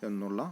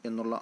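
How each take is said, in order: Both takes have the same delivery.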